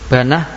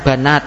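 First: The word ends with an h sound. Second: The word ends with a t sound. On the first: This is the pausal form. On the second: This is the original form.

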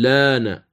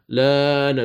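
First: The vowel after the L is held short. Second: The vowel after the L is held long. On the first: "تمد بالأوجه الثلاثة" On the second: "تمد بالأوجه الثلاثة"

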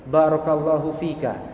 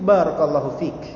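First: The final vowel of the last word is pronounced. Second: The final vowel of the last word is dropped. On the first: The speaker calls it wrong. "dalam percakapan itu kita tidak layak seperti itu" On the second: The speaker calls it right. "Cukup barakallahu fik"

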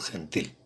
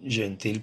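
First: The first consonant is a voiceless throaty rasp. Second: The first consonant is a voiced buzzing sound. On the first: This is the modern Spanish pronunciation. "en español moderno sería jeji" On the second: "este caso es claramente un arcaísmo"

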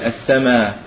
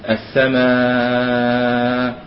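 First: The long vowel is held briefly. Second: The long vowel is held for a long time. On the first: "يقصر" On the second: "ويطول"

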